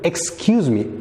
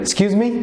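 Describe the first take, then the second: First: It is said slowly and drawn out. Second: It is said quickly and squeezed together. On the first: "ረዘም ባለ መንገድ" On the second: "ፈጠን ሲል ፊልም ላይ የምትሰሙት"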